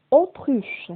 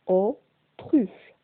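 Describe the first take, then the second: First: Said in the usual way. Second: "autruche" split as au, pause, truche; découpé en syllabes. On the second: Shown as a demonstration. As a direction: sound out "autruche" slowly in two separate pieces. (« autruche » prononcé syllabe par syllabe) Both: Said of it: "j'entends le son O".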